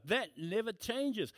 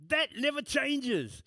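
First: Slow, settled "That never changes" at normal volume; quieter restatement. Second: Much higher and louder, slow, punching THAT; emphatic declaration. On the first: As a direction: let it land calmly the second time. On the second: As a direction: hammer home "That never changes" slowly. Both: Acted.

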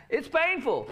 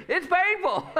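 First: Laughing. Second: High, loud sung-out call-back for the congregation to echo. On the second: Pastor leading the congregation in a repeat-after-me, high and loud. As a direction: lead the room, pitch way up. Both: Shown as a demonstration. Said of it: "Say that with me".

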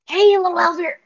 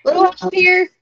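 First: Loud hushed call, high; whisper-shout the line; whisper yelling. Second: Hushed but loud call for help; strained whisper-shout; whisper yelling. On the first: Shown as a demonstration. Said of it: "Whisper yell, you said?". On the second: Acted. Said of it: "I kind of whisper yell".

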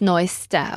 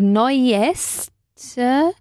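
First: "neuesta" run together, second e swallowed; natural pronunciation. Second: "neueste" drawn out, both written e's sounded; spelling pronunciation. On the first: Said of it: "la segunda E, digamos, no se pronuncia". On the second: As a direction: stretch "neueste" very slowly, sounding each e. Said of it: "con dos es, es decir". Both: Shown as a demonstration.

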